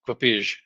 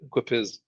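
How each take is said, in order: First: The name ends with a j-like sound. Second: The name ends with an s sound. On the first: This is a guess at the original Czech pronunciation. "I think this is Czech, so it would probably be uh" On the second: This is the speaker's usual pronunciation. "I pronounce it Quapis"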